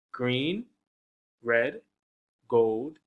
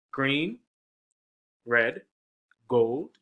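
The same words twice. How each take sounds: The two takes are said the same way.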